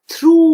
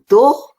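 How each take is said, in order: First: It ends with an oo sound, like too. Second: It ends with an oh sound, like go. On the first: The speaker calls it right. "O U G H has the sound of oo" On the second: The speaker calls it wrong. "No, no, no"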